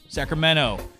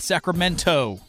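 First: The word is said in a California accent. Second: The word is said plainly, as it is written. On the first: The speaker calls it right. "Us Californians have an accent" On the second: The speaker calls it wrong. "Not Sacramento"

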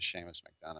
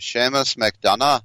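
First: The name is said in a plain voice. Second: The name is said in a put-on accent. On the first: "it sounds stupid" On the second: "I can't help but say it like that"

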